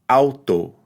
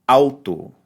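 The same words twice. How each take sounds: Both takes have the same delivery.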